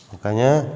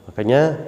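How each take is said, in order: The two takes are said the same way.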